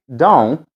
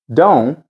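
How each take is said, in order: Both takes have the same delivery.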